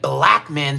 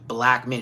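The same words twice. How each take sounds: First: Black is said with heavy, drawn-out emphasis. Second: Black is said plainly, without special emphasis.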